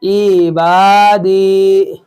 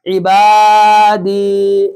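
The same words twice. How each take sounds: First: عبادی with the short ع vowel wrongly stretched; slow عبادی said the wrong way on purpose. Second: عبادی with a quick ع and long با and دی; slow, correct recitation of عبادی. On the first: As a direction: mistakenly draw out the opening ع of عبادی. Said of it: "ایسے مت بولیے گا". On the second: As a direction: keep the ع of عبادی short, stretch با and دی. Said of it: "کیونکہ عین کے نیچے زیر ہے". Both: Shown as a demonstration.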